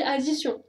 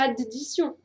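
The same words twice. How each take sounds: First: Addition with one plain D, the right way; single D. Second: Addition said with the double D pronounced, the wrong way. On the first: Teacher showing students the correct single D. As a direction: say addition as if there were only one D. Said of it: "Tu dis addition". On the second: Teacher showing students a wrong double D. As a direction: stress the d d in addition, as a mistake. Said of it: "tu dis pas addition". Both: Shown as a demonstration.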